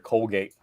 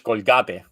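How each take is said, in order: First: Colgate is said with an English pronunciation. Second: Colgate is said with a Spanish pronunciation.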